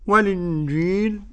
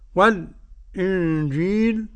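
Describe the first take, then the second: First: The glottal stop is dropped, linking l to i. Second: A brief silence comes before the glottal stop. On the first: "أد النقل" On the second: "أد السكت"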